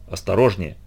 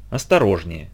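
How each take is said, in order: First: Gently quoted. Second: Soft, low careful warning; gently. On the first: A narrator's reading. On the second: Acted. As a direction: say it gently, almost tenderly. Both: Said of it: "мягко сказал".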